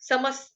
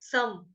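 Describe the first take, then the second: First: The word ends with a short s sound. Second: The word ends with a breathy h sound. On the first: A word starting with s follows. "आधा स विसर्ग का उच्चारण जो है वो आधे स के साथ" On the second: The word ends the phrase. "पहले जैसे मैंने सिर्फ समः तक बोला, तो समः ऐसे आएगा"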